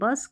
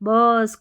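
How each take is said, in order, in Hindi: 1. स्वर छोटा रखा जाता है। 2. स्वर खींचकर लंबा बोला जाता है। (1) "शॉर्ट साउंड" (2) "ऐसा नहीं है"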